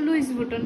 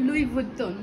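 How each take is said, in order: First: The first name ends with an s sound. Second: The first name ends without an s sound. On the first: The speaker calls it wrong. "আমি ভাবতাম লুইস বুটন, বাট এটা লুইস বুটন না" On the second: The speaker calls it right. "এটা হলো লুই বুটন"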